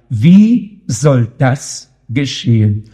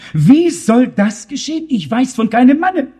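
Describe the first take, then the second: First: Solemn, drawn-out wondering; slow weighty question. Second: Higher, a touch of alarm; Mary asking in startled disbelief; a hint of fright, pitched higher; mildly startled question. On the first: Acted. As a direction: lower and slow, pondering. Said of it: "nur noch eine Frage war da". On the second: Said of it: "fragte sich erschrocken".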